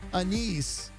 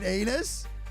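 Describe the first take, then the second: First: The word is said with a short 'a' and 'ees'. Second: The word is said with a long 'ay' and 'us'. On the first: The speaker calls it right. "she used anise in her cake" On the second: The speaker calls it wrong. "but pronounced it anus"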